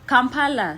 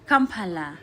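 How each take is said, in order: First: It is said in the speaker's own accent. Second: It is said in a Ugandan accent.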